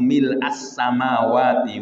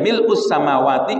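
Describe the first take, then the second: First: The vowel after mil' is an a. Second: The vowel after mil' is a u. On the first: "Jadi yaitu fathah ya" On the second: "mau mil us juga boleh"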